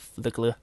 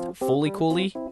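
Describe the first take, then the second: First: It is said as two syllables, flick-la. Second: It is said as four syllables, foo-lee koo-lee. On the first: The speaker calls it wrong. "or Flickla" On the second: The speaker calls it right. "it is actually pronounced Fooly Cooly"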